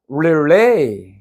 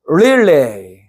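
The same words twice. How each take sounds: First: The stress is on the second syllable. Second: The stress is on the first syllable. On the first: It is a verb meaning to pass on. "전달하다는 릴레이" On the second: It is a noun meaning a relay race. "교대 교대의 개주는 따라서 하세요"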